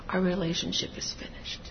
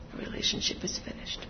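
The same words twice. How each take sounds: First: Softer, a touch subdued; quiet. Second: Unvoiced whisper of the words. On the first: Retold or imitated. Imagined statement, quiet. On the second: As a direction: let it fade to a whisper. Repeated, whispered.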